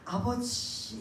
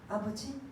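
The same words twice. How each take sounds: First: The word is said with deep, heartfelt emotion. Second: The word is said plainly, without feeling. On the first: The speaker pours out a longing heart. The speaker calls it right. "정말 내 마음과 감정을 담아서" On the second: It is only a form of address. The speaker calls it wrong. "아버지 하는 것도 아니고"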